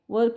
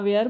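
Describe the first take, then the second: First: The word is said with a short 'wer' vowel. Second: The word is said with a long 'wear' vowel. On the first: The speaker calls it right. "वर उच्चार केला अधिक चांगला राहील" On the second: The speaker calls it wrong. "बरेचसे आपल्याकडे वेअर असं पण म्हणतात"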